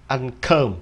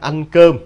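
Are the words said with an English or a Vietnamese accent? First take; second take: English; Vietnamese. First: It is said with an English accent. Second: It is said with a native Vietnamese accent. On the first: "Nếu đọc theo giọng Anh là ăn cơm" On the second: "Mình nói là ăn cơm"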